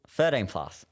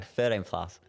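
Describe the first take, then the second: First: It is yelled loudly. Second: It is said at normal volume.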